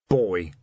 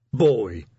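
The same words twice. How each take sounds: First: Discreet aside from the side of the mouth; corner-of-mouth prompt. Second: Loud, triumphant troll voice. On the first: Commander prompts his troll officer from the corner of his mouth. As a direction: slip him the missing word. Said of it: "said Vimes out of the corner of his mouth". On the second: Troll officer finds the word he wanted, triumphant. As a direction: land the word proudly and louder. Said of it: "said Detritus triumphantly". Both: A narrator's reading.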